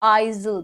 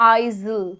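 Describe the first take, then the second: The two takes are said the same way.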